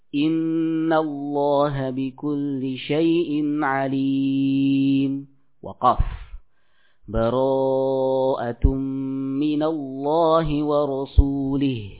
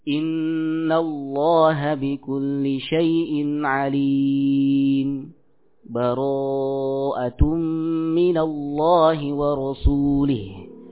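First: A full stop with a new breath separates them. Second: A brief stop without taking a breath separates them. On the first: "waqaf pada surah Al-Anfal, kemudian melanjutkan lagi" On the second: "Berhenti tanpa kita mengambil nafas. Berhenti sejenak"

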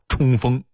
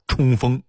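First: It is said in a Datong dialect accent. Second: The same.

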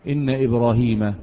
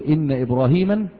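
First: The name ends without an added nunation sound. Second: The name ends with an added 'an' nunation sound. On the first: The speaker calls it right. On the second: The speaker calls it wrong.

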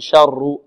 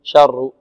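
First: The r is trilled several times. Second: The same.

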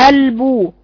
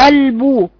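Both takes have the same delivery.

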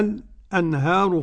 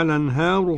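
First: A brief silent pause comes before the glottal stop. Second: The glottal stop is dropped and the vowel linked. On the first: "السكت" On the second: "هذا هو النقل"

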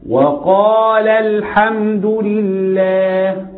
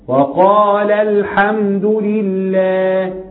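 Both takes have the same delivery.

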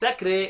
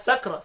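First: The final vowel is tilted toward 'e'. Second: The final vowel is a plain open 'a'. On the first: The speaker calls it right. "حمزة والكسائي بيميلوا ذوات الراء" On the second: The speaker calls it wrong. "ما تقولهاش سكرى"

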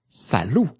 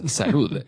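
First: The word ends on a stressed u vowel. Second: The word ends with a final d sound. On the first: The speaker calls it right. "con acento en la U, y no hay ni más letras después de la U" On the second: The speaker calls it wrong. "No es salud"

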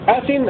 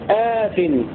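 First: The opening vowel is short. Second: The opening vowel is long. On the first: "قرأ ابن كثير بدون ألف بعد الهمزة" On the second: "وقرأ الباقون بألف بعد الهمزة"

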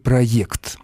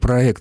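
First: The second vowel is a 'ye' sound. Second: The second vowel is a plain 'e' sound. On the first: The speaker calls it wrong. "а не «проект»" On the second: The speaker calls it right. "как я сейчас его произношу"

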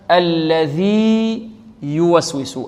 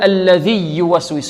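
First: The two y sounds are kept separate. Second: The two y sounds are merged into one. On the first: The speaker calls it right. "وإنما" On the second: The speaker calls it wrong. "لا نقول"

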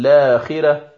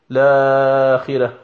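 First: The vowel after the first sound is short. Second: The vowel after the first sound is lengthened. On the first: The speaker calls it right. "فيتعين عليك في هذه الحال القراءة بالقصر فقط" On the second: The speaker calls it wrong. "لا يصح أن تقول لآخرة، فالمد هنا لا وجه له"

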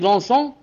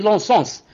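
First: The word ends without an s sound. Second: The word ends with an audible s sound.

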